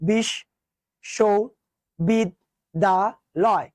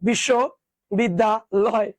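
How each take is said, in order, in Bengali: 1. এটি পাঁচটি আলাদা অক্ষরে ধীরে উচ্চারিত হয়। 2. এটি তিন অংশে একটু দ্রুত উচ্চারিত হয়। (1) "তুমি উচ্চারণ করো তো" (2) "তুমি যদি একটু দ্রুত পড়ো"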